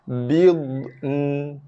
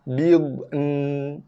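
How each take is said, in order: The two takes are said the same way.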